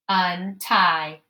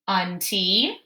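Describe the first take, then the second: First: The second syllable ends in an 'eye' sound. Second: The second syllable ends in an 'ee' sound. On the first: The speaker calls it right. "Or it might say I, T I, ... That sounds right" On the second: The speaker calls it wrong. "So this might say T E, ... Mm-mm"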